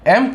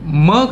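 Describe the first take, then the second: First: It is said as the full letter name "em". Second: It is said as a short bare "m" sound. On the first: The letter stands alone. "जब ये एम जो है ये अकेले में है" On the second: The letter is inside a word. "जब यही एम यहाँ पर वर्ड में आ रहा है"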